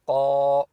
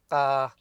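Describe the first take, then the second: First: The consonant is heavy, made deep in the throat. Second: The consonant is light, made further forward. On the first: The speaker calls it right. "qaf is full mouth" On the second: The speaker calls it wrong. "not ka. That would be wrong"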